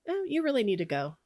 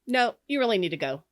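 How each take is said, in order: First: It is said in a calm voice. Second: It is said in a stern voice.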